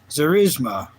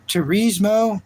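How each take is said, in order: First: The name begins with a Z sound. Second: The name begins with a T sound. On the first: The speaker calls it right. "they say it with a Z" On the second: The speaker calls it wrong. "that's not how you say it"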